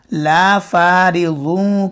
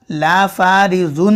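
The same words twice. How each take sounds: First: ला फारिगुन slow, n nasalized; nasal ghunna. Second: ला फारिगुन with a clear n; crisp n at the end of फारिगुन; wrong reading. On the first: Teacher giving the correct nasal reading. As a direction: hum the n of फारिगुन. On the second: Teacher showing the reading to avoid. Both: Shown as a demonstration. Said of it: "ला फारिगुन नहीं पढ़ेंगे".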